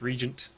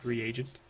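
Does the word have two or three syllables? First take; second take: two; three. First: The word is said with two syllables. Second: The word is said with three syllables. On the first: The speaker calls it right. "I guess there's no A in it, so it's Regent" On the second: The speaker calls it wrong. "not Reagent"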